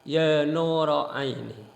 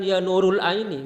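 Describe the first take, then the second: First: The word nur ends with an added o vowel. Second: The word nur ends with an added l sound. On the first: The speaker calls it right. "itu yang betul" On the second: The speaker calls it wrong.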